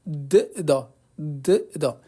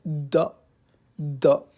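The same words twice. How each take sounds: First: "d, da" with each D said apart; two separate Ds. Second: "da" with the D held and leaned on; doubled, pressed D. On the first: Teacher reading both letters before merging, "d, da" said as separate sounds. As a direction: split it into a lone "d", then "da". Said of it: "c'est un peu lourd à di". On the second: Teacher demonstrating shadda to students, "da" with a pressed, doubled D. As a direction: press hard on the D of "da" as one merged sound. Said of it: "je vais venir appuyer sur la lettre". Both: Shown as a demonstration.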